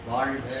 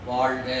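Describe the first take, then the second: Both takes have the same delivery.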